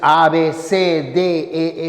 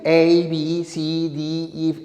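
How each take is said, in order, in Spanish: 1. Las letras se nombran con nombres españoles. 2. Las letras se nombran con nombres ingleses. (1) "En español es" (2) "En inglés sí"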